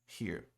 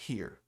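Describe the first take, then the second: The two takes are said the same way.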